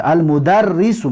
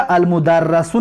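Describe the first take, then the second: First: المدرسو read as al-mudarrisu with a kasra on the doubled r; المدرسو with an i vowel, al-mudarrisu, shown as right; correct reading. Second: المدرسو read as al-mudarrasu with a fatha on the doubled r; المدرسو with an a vowel, al-mudarrasu, shown as the mistake; the wrong way: المدرسو as mudarrasu. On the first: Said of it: "میخونیم شه". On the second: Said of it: "نمیخونیم شه". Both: Shown as a demonstration.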